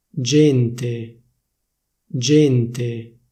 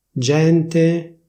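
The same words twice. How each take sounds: First: "Gente" with a closed E, génte; "Gente" the Milan way, closed E; Milanese closed e. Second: "Gente" with an open E, gènte, a bit higher; "Gente" standard open E; official open e. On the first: Showing viewers Milanese "Gente", closed E. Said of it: "come viene pronunciata a Milano". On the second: Showing viewers standard "Gente", open E. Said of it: "prima ti dico la pronuncia ufficiale". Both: Shown as a demonstration.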